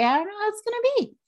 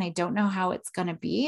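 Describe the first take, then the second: First: Much higher and fast, anxious "I don't know how it's gonna be"; mock nervous. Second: Said in the usual way. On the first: Shown as a demonstration. Mom showing her daughter how nerves sound, high and rushed. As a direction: rush it up high like stage fright. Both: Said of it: "You pay attention".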